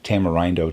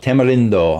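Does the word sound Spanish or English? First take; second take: English; Spanish. First: The word is said with a plain English pronunciation. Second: The word is said with a Spanish-sounding pronunciation. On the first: "normally I would pronounce it" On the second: "I'm going to go that way because it sounds kind of Spanish to me"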